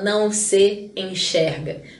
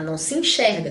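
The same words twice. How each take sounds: First: The words are said separately, each S sound kept. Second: The words are run together into one sound. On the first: The speaker calls it wrong. "A gente não fala não se enxerga" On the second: The speaker calls it right. "tudo junto"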